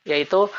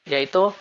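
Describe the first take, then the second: No difference in how they are said.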